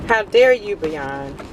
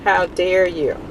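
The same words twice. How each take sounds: First: Playful fake indignation; mock outrage. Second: A lighter repeat of the scolding; half-hearted fake indignation; milder mock outrage. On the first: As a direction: scold the brand in jest. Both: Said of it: "I'm so mad at them".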